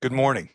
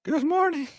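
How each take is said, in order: First: A touch louder, earnest speech opener; lightly voiced presidential address; dramatic reading. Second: Pitched way up, overdone start; a false start pitched too high; a squeaky over-the-top opening; botched first try. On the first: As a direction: start the president's speech with gravity. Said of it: "I'll just read it out". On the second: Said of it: "Oh, that's not right". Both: Shown as a demonstration.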